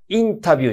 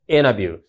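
First: The T after the n is clearly pronounced. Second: The T after the n is dropped. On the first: The speaker calls it wrong. "インタビューじゃなくて" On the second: The speaker calls it right. "このT ほとんど発音しません。"

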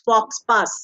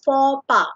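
First: The final consonants are pronounced aloud. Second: The final consonants are silent. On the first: The speaker calls it wrong. "ye thoda sa gadbad pronunciation ho jata hai because it becomes faux pas" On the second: The speaker calls it right. "It is faux pas. It's a French word"

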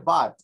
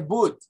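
First: The vowel sounds like an open 'a'. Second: The vowel is not an open 'a' sound. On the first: The speaker calls it right. "Se dice but. Como una A" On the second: The speaker calls it wrong. "No se dice but"

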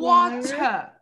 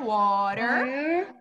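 First: The final R sound is dropped. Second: The final R sound is clearly pronounced. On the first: "Ou water" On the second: "Podemos falar water com um sonzinho de R"

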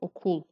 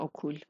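First: The first vowel is strongly rounded. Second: The first vowel is plain and unrounded. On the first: The speaker calls it right. "باید یه خورده اوشو حالت قلمبه تلفظ کنیم. میشه اوکول" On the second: The speaker calls it wrong. "نه اوکول"

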